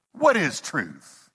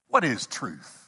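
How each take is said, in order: First: Slow, drawn-out disdain; disgusted. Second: Low, dry, doubting scoff; skeptical. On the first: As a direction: drag the question out as if the idea repels you. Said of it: "I think he was disgusted with the notion". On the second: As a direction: toss the question off with doubt. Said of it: "uh, skeptical". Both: Retold or imitated.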